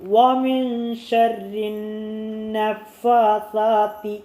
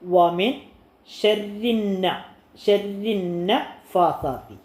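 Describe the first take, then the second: First: The phrase is read joined as one unit. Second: The phrase is broken into two separate parts. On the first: "ഒരുമിച്ച് വായിക്കണം" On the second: "രണ്ടാക്കി വായിച്ചിട്ട്"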